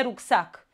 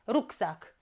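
First: "rucsac" stressed at the end, ruc-SAC; stress on last syllable. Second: "Rucsac" stressed at the start, RUC-sac; stress on first syllable. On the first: Teacher showing the mistake, "rucsac" stressed on SAC. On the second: Teacher giving the correction, "Rucsac" stressed on RUC. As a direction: put the weight on RUC in "Rucsac". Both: Shown as a demonstration. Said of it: "Nu e rucsac".

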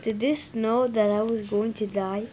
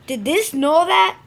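First: Said in the usual way. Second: Louder, slower outraged question; outraged repeat. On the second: Real, not acted. Gamer rages at the map, loud outraged question. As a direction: demand it indignantly.

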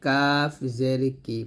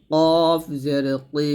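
First: কাফ জের কি with a light k; thin kaf. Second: কফ জের কি, drawn out with heavy back k; thick qof. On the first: Teacher gives the lighter letter, thin কাফ. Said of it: "পাতলা করে বলতে হবে". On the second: Teacher contrasts qof with kaf, heavy long কফ. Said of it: "কফটা মোটা করে বলতে হবে". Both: Shown as a demonstration.

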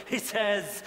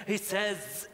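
The two takes are said the same way.

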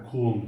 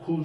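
First: Kul with a thick, low back k and a thin l; Arabic kul. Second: Said in the usual way. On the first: Shown as a demonstration. Teacher showing the proper Arabic kul, not the Turkish one. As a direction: say kul with heavy k and light l, set lower. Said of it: "Ku'yu kalın oku, L'yi ince oku". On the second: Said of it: "Türkçe'de biz kul diyoruz ya".

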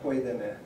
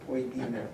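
First: "poidene" accented on "poi", the rest light; first-syllable stress. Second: "poidine" with the accent on "di"; second-last-syllable stress. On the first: Lecturer showing the rejected accent, "poidene" stressed on "poi". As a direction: hit "poi" in "poidene" and let the rest fall. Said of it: "It's not". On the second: Lecturer showing the transcriber's accent, "poidine" stressed on "di". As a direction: stress the middle of "poidine", a clear "dee". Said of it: "he's saying". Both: Shown as a demonstration.

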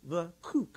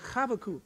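First: "Chavakuk" with a throaty ch and a v in the middle; "Chavakuk", guttural ch, v sound; Hebrew pronunciation. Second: "Chavakuk" said together on the count, throaty ch and v; "Chavakuk", guttural ch, v for b; Hebrew pronunciation with the crowd. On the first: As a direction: model "Chavakuk" for the crowd to repeat. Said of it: "now y'all gotta try that". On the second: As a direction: lead the room in saying "Chavakuk". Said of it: "One, two, three". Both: Shown as a demonstration.

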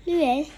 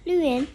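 No difference in how they are said.

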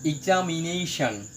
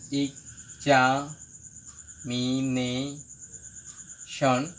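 First: Said in the usual way. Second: examination drawn out very slowly, part by part; long pauses inside examination: ex, za, mi, ne, shon; broken into syllables. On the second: Shown as a demonstration. Teacher showing a polysyllable, examination split syllable by syllable. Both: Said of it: "এটাকে ভাঙলে".

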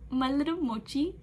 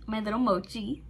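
First: Cutesy doting. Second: Said in the usual way. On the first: Real, not acted. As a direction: coo it to him like a pet name. Doting on Jimin.

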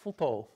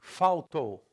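First: Faltou with a real L, "fl-to"; European Portuguese pronunciation. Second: Faltou said "fau-tou"; Brazilian pronunciation. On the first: Teacher giving Portugal's form, faltou as short "fulto". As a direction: reduce the vowel and keep the L in faltou. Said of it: "In Portugal". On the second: Teacher showing L becomes U, Faltou as "fau-tou". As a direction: turn the L of Faltou into u. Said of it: "The L becomes U". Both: Shown as a demonstration.

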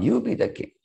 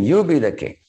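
First: "You" leaps very high, without extra volume; retold insistence, pitch soaring on "You"; high-pitched counter-offer. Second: "You" pitched up and firm, falling away to "king"; insistent retold offer, "You" on top; stress on YOU. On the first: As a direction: throw it back with a squeaky-high "You". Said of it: "Bharat is telling Ram". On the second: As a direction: hand it over with a raised, emphatic "You". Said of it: "Rama is telling".

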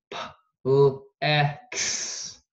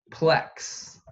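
First: P-L-E-X broken into separate sounds; sounded out. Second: Said in the usual way. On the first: Shown as a demonstration. Teacher dictating plex for spelling, sounded out. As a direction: say P-L-E-X sound by sound, gaps between. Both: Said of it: "the next word is plex".

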